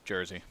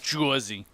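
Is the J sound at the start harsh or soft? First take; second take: soft; harsh. First: The J at the start is soft. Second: The J at the start is harsh. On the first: The speaker calls it right. "Soft J" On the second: The speaker calls it wrong.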